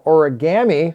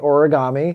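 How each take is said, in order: First: The ending is said like 'ammy'. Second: The word is said in the ordinary way. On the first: "with like M M Y, A M M Y" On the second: "we have it regularly"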